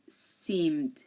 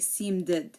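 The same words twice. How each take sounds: First: The ed ending adds no extra syllable. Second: The ed ending adds an extra syllable. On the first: The speaker calls it right. "We say" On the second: The speaker calls it wrong. "we don't say seemed"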